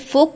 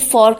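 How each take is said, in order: First: It is said in a British accent without r. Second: It is said in an American accent with r.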